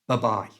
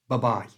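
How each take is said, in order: First: The first vowel is a quick weak 'uh'. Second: The same.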